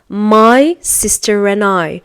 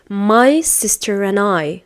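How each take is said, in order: First: The word 'and' is reduced to 'n'. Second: The same.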